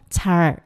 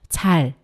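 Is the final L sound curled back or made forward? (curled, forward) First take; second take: curled; forward. First: The final L is curled back like English R. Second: The final L is made with the tongue forward. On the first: The speaker calls it wrong. "영어처럼 혀를 뒤로 모, 이렇게 보내서 잘 이게 아니라" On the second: The speaker calls it right. "혀 끝을 앞니 뒤쪽으로 보내서 단단하게"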